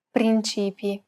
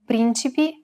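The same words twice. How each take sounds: First: "principi" stressed on the middle syllable, CI; stress on second syllable. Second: "Principi" stressed on the first syllable, PRIN. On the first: Teacher distinguishing look-alike words, "principi" stressed on second syllable. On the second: Teacher distinguishing look-alike words, "Principi" stressed on first syllable. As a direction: hit the opening "Prin" of "Principi". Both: Shown as a demonstration. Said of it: "help the reader distinguish between two words".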